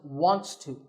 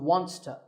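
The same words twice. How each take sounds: First: The words are said fully and separately. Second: The words blend into one reduced form. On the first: "it becomes wants to" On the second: "This can be reduced to"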